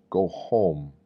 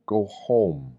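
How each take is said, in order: Both takes have the same delivery.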